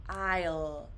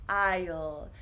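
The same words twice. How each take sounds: No difference in how they are said.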